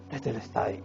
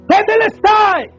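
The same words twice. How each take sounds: First: It is said weakly, out of breath. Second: It is shouted loudly with strength.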